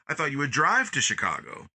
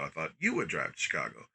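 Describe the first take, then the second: First: The stress falls on the word drive. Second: The stress falls on the word you. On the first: Driving was expected rather than walking. "You emphasize the drive" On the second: The other person was expected to be the driver. "why am I behind the wheel?"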